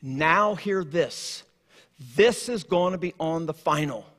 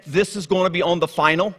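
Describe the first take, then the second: First: Slow, soft and grave; God addressing humankind, softer and slow; solemn announcement. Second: Teacher's warning. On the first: Acted. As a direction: say it like God's own quiet announcement. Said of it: "God saying to all of humankind". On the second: Retold or imitated. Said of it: "when you hear the teacher say".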